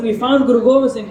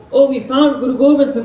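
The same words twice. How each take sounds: First: Same loud mock shout, now faster; retold scream. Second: Loud mock shouting, a little higher; retold scream. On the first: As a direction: rattle it off louder and quicker in triumph. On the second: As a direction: call it out like soldiers who found their target. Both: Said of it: "they start to scream".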